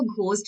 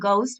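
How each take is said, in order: First: The g is followed by a breathy h sound. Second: The g is plain with no breathy h sound. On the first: The speaker calls it wrong. "इसको घोस्ट नहीं बोलते हैं" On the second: The speaker calls it right. "इसमें H जो होता है वो silent होता है, इसको गाउस्ट बोलते हैं"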